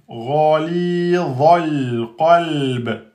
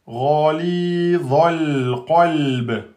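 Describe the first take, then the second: No difference in how they are said.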